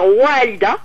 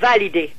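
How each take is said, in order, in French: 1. Le mot commence par un son w. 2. Le mot commence par un son v. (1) "au lieu de dire Walida" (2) "Ils disent Validé"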